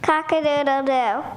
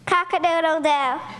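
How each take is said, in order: First: It is crowed a little louder. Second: It is crowed very loudly.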